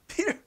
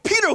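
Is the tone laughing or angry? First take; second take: laughing; angry. First: It is said with laughter, playfully. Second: It is said harshly, like yelling.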